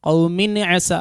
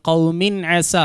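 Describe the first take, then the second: The two takes are said the same way.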